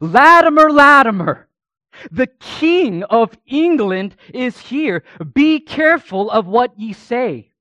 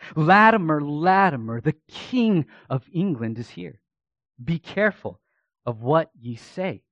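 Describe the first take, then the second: First: It is shouted in a loud voice. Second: It is mumbled quietly under the breath.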